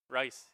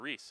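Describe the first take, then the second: First: The name is said as one syllable, rice. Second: The name is said as one syllable, reese. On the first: The speaker calls it right. "R U I S, Rice, just how you drew it up" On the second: The speaker calls it wrong. "excuse me"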